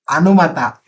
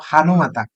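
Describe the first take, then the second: First: The word starts with a vowel, without h. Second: The word starts with a clear h sound. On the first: The speaker calls it wrong. "you are saying a" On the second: The speaker calls it right. "instead of saying ha"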